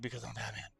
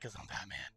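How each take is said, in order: First: Batman voice. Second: Low, whispered Batman growl, much softer. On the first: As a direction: say it gravely as the caped crusader. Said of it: "the Batman voice". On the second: Answering Harley in a low whispered Batman voice. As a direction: rasp it like the Dark Knight. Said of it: "first time I used the Batman voice". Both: Retold or imitated.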